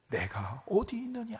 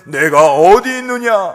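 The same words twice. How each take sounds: First: It is said in a tender, pitying tone. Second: It is said in a harsh, scolding tone. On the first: The caller calls out of love and compassion. The speaker calls it right. "안타까운 마음 가운데 사랑하는 마음과 긍휼과 자비의 마음을 다 담아서" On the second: The caller wants to scold and punish. The speaker calls it wrong. "그렇게 읽으면 안 되는 거예요"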